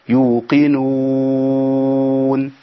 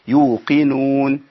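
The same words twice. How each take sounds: First: The long vowel is held for six counts. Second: The long vowel is held for two counts. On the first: "2 او 4 او 6" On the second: "2 او 4 او 6"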